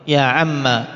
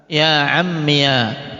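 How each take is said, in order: First: The word ends in a short a vowel. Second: The word ends in a -iya syllable. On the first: "dengan memfathah... alif ini di buang" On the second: "Ya-nya diharokati fathah"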